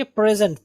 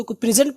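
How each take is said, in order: First: "پریزنٹ" as pre-zent; "پریزنٹ" opening with pre; correct present. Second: "پریزنٹ" as pri-zent; "پریزنٹ" opening with pri; common wrong present. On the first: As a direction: say "پریزنٹ" with a re sound. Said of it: "رے کی آواز ہے". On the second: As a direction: say "پریزنٹ" with an i in the first syllable. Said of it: "ہم اس کو پریزنٹ پڑھتے ہیں". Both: Shown as a demonstration.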